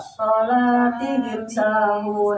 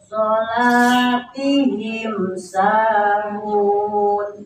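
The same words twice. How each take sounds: First: The m sound is skipped over quickly. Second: The m sound is said fully and clearly. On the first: The speaker calls it wrong. "nah itu loncat" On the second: The speaker calls it right. "sempurnakan bunyi mimnya, ... santai aja"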